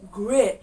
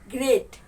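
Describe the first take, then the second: First: The tongue curls back without touching on r. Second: The tongue touches the ridge on the r. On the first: "American people they don't let their tongue touch" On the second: "It's just touching the upper side of your mouth"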